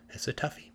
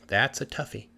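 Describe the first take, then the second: First: Soft unvoiced whisper, musing. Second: Said in the usual way. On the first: Hans stumped in the woods, musing: whispered. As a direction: whisper it like a private thought.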